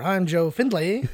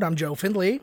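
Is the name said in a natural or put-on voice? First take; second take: natural; put-on. First: The name is said in a natural voice. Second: The name is said in a put-on voice.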